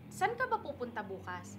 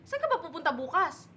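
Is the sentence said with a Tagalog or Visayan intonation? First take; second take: Tagalog; Visayan. First: It has an ordinary Tagalog intonation. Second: It has a Visayan intonation that sounds angry.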